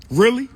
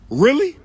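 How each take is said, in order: First: Sharp rising disbelief, louder and higher; raised incredulous really. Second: Even higher and louder rising really; more incredulous. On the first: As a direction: ask it like you can't believe it. Incredulous at Cheesecake complaint. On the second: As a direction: push the disbelief further. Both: Real, not acted.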